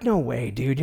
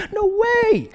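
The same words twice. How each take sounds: First: Lower, scoffing imitation of doubting friends; mock dismissal. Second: Very high, hammed-up squeal of disbelief; mock amazement. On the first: Friends doubt the buddy's video plan, lightly mocked dismissal. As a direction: brush the idea off lightly. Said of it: "It's ridiculous". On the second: Friends see him on SportsCenter, hammed-up amazed squeal. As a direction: squeal it as if utterly astonished. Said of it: "I can't believe".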